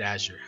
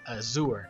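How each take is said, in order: First: The word is said unlike Spanish azul. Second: The word is said like Spanish azul. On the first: This is the pronunciation the speaker rejects. The speaker calls it wrong. "I will not say it azure" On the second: This is the speaker's chosen pronunciation. The speaker calls it right. "the reason why I say it azure"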